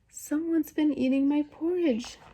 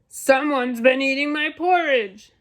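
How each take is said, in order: First: It is said in a wee, small voice. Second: It is said in a great, huge voice.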